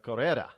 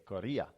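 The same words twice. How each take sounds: First: It is said with a plain English accent. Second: It is said with a Spanish accent.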